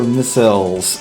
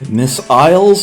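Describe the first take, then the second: First: The second syllable is reduced to a schwa. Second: The second syllable has a full 'isle' vowel.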